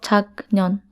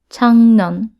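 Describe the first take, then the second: First: The first syllable ends in a k sound. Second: The first syllable ends in an ng sound. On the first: The speaker calls it wrong. "not 작년" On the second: The speaker calls it right. "it's pronounced as 작년"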